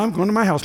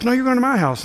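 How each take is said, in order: First: Said in the usual way. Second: Higher-pitched retold overruling; insist, pitched up, brooking no refusal; pushy insistence. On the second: Church lady overruling a guest's refusal, imitated pushy insistence. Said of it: "those people were pushy".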